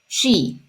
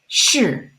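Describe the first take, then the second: First: It sounds like the English word 'she'. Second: It does not sound like English 'she'. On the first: The speaker calls it wrong. "not she" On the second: The speaker calls it right. "it's shi"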